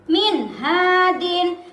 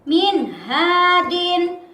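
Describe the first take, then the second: No difference in how they are said.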